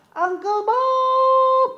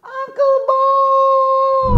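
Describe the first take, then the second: First: High, drawn-out sung call. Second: Very high, loud drawn-out yell; louder shout. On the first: Host leading the kids to call Uncle Bob, long high sung call. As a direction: call his name like across a yard. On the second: Host calling Uncle Bob again after the first call was too weak, loud yell. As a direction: shout so he can finally hear. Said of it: "Kurang kuat, dia nggak denger". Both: Shown as a demonstration.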